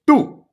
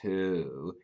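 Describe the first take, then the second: First: The word is said hard, with force. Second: The word is said softly, without force. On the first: The speaker calls it right. "You're saying it harder" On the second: The speaker calls it wrong. "it's not two"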